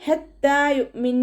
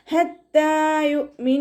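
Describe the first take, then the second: First: ഹത്താ യുഅ്മിൻ slower, cut off with a full hard stop on the nun; wrong stop. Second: ഹത്താ യുഅ്മിൻ chanted high, ending യുഅ്മിൻ with a half sukun on the nun; correct stop. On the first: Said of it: "എന്ന് പറഞ്ഞിട്ട് വഖഫ് ചെയ്യരുത്". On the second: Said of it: "അതുപോലെയാണ് വഖഫ് ചെയ്യേണ്ടത്". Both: Shown as a demonstration.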